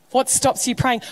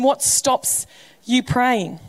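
First: Said in the usual way. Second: Slow emphasis. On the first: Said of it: "question repeated". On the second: Shown as a demonstration. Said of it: "question repeated for emphasis".

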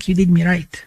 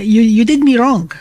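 First: Said in the usual way. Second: Each word drawn out, "did" stressed and falling; slow stressed English phrase. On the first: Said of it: "وفي حد يقول لك". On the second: Shown as a demonstration. Teacher slowly stressing "you did me wrong". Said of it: "يعني أنت أسأتي إلي".

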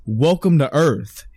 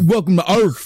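First: "Earth" said with a th ending, slow and careful; correct Earth. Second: "Earth" ending in an f, in a higher Chicago voice; mock Chicago accent. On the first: Host showing how Will Smith really says Earth, with th. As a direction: say "Welcome to Earth" with a clear th in "Earth". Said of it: "Yeah, he says". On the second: Host mocking the misquote with a Chicago accent, Earth as Urf. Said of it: "He doesn't say, like, he's fucking from the fucking Chicago". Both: Shown as a demonstration.

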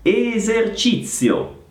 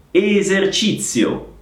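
Both takes have the same delivery.

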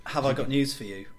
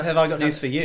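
First: "Have I got news for you?" with stress on got; wrong stress. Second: "Have I got news for you?" with stress on I. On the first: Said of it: "See, that's wrong". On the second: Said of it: "Is that wrong?". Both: Shown as a demonstration.

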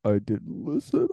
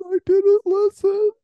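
First: Said in the usual way. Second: Very high, loud silly voice on didn't; high-pitched mocking whine; mock high squeal. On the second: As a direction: squeal it like a cartoon brat. Repeats line in silly voice.

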